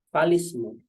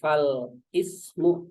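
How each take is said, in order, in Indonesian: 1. Kedua kata disambung menjadi satu kata yang lancar. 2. Bunyi 'i' dibaca terpisah setelah fal. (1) "tapi falismu" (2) "bukan fal ismu"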